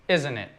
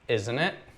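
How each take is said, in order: First: The voice falls at the end. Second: The voice rises at the end. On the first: The speaker is only seeking confirmation. "the intonation goes down" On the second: The speaker is genuinely asking a question. "if it's a legitimate question"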